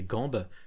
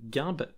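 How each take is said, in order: First: The first vowel is the nasal 'an' sound. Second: The first vowel is the nasal 'in' sound. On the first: This is how the older generations say it. "On dirait Gambe" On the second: This is how the younger generation says it. "je ne l'ai quasiment jamais entendu"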